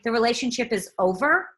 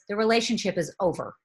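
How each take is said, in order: First: The pitch rises at the end. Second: The pitch falls at the end. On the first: The matter still seems open for discussion. The speaker calls it wrong. "you don't want to say ... if you raise the pitch" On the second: The matter is final and closed. The speaker calls it right. "What you really want to say ... Drop the mic"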